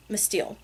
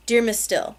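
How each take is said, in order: First: Whispered Miss Steele. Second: Said in the usual way. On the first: A narrator's reading. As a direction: breathe Miss Steele softly. Repeats name in a whisper.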